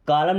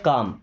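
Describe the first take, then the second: First: The L sound is pronounced in the word. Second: The L sound is left out of the word. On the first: The speaker calls it wrong. "एल silent है, कालम नहीं पढ़ते" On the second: The speaker calls it right. "क्या पढ़ते हैं? काम"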